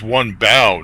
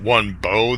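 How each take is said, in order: First: The word 'bow' rhymes with 'cow'. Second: The word 'bow' rhymes with 'go'. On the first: Bending down in worship is meant. The speaker calls it right. "bow down, and worship me" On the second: A weapon for archery is meant. The speaker calls it wrong. "This isn't about archery"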